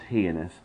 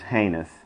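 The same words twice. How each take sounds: First: The first vowel is not the 'ay' of eight. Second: The first vowel is the 'ay' of eight. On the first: The speaker calls it wrong. "often mispronounced heinous" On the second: The speaker calls it right. "but it is heinous. The E-I, as in our English word, eight"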